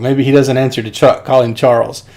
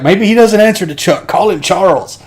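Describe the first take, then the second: First: Said in the usual way. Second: High, raised-voice movie quote; acted exasperated suggestion. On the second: Hopper to one of the guys, mock exasperated. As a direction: toss it out as a hammed-up order. Acts Deacon's exasperated favorite line.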